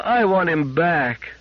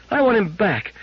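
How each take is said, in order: First: Put-on high, slow, aching child voice; slow pleading child; drawn-out child plea. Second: Put-on high child plea at normal pace; a girl demanding her robot back; insistent high child voice; begging child. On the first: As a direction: stretch it out as a plea to mama. Child begging mother.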